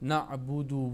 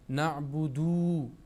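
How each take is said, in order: First: The final vowel is kept short. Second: The final vowel is drawn out long. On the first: The speaker calls it right. "यहाँ पर दाल पेश दु है, वाव ज़बर व" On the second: The speaker calls it wrong. "वाव मद्दा का कायदा बनाते हैं और पढ़ते हैं नअबुदू, हालांकि नअबुदू गलत है"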